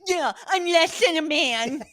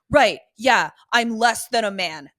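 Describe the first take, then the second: First: It is said in a sniveling voice. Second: It is said in a plain voice.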